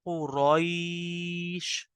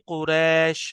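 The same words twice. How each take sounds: First: The vowel is softly drawn out. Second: The vowel is said short, in Urdu style. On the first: The speaker calls it right. "आप बहुत ही नरमी के साथ खींचेंगे" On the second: The speaker calls it wrong. "अगर कोई इस तरह पढ़े लीलाफी कुरैश तो ये गलत है"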